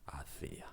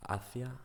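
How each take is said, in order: First: "hacia" as past tense hacía, stress on the i, dropped soft; quiet "hacia" with the í stressed. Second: "hacia" said high and rising, stress on ci. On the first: Teacher to viewers: past tense "hacia", stress on í. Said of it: "Hacia is a past tense". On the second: Teacher to viewers: "hacia", stress on ci. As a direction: lift "hacia" on its middle syllable. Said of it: "Hacia is a preposition". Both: Shown as a demonstration.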